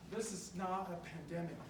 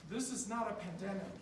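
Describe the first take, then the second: No difference in how they are said.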